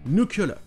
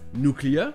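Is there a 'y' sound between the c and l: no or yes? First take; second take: yes; no. First: It has a 'y' sound between c and l. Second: It has no 'y' sound between c and l. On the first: "comme s'il y avait le son ye entre le C et le L" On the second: "la prononciation de base"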